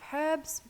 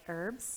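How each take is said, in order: First: The word is said in a non-American way. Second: The word is said in an American way.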